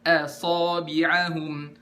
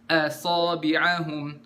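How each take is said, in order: No difference in how they are said.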